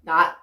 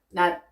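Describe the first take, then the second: First: The final consonant is released with audible sound. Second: The final consonant is cut off, unreleased. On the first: Each final consonant is kept distinct. The speaker calls it wrong. "막 이런 식으로 발음을 하는데 그거 아니죠 여러분" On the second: All the different final consonants sound the same. The speaker calls it right. "다 똑같은 낫. 이렇게 발음이 되고 있습니다"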